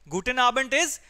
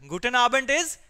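The two takes are said the same way.

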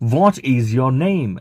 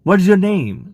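First: The word 'is' is said fully and separately. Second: The word 'is' is contracted into 'what's'.

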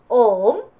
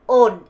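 First: The word ends with closed lips, southern accent. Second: The word ends in an 'n' sound, northern accent. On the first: "남부로는 옴 입을 다물어야 돼요" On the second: "북부로는 on, on 이렇게 되는데"

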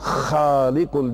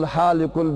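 First: It begins with a raspy, throaty kh sound. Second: It begins with a plain, soft h sound. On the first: The word means the Creator. The speaker calls it right. "halikul diyeceksin. Halikul de hırlamak için" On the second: The word means barber. The speaker calls it wrong. "Huvallahul halikul bari'ul desen olmaz"

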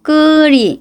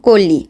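First: The name has a Korean-style pronunciation. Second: The name has a native Bengali pronunciation. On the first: The speaker calls it wrong. "কুড়ি কুড়ি এইভাবে বলবে" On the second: The speaker calls it right. "আমার নাম কলি"

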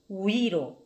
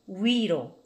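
No difference in how they are said.

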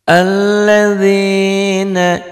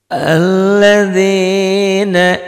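The two takes are said the same way.

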